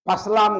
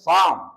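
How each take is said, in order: First: The p and l sounds are both heard. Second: The p and l sounds are both silent. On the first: The speaker calls it wrong. "పస్లాం కాదు" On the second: The speaker calls it right. "పి silent... ఎల్ కూడా సైలెంటే"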